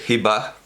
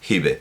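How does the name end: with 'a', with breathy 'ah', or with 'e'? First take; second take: ah; e. First: The name ends with an audible breathy h. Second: The name ends on an e vowel. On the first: "no tiene sentido decir Hibah" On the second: "a la manera dialectal"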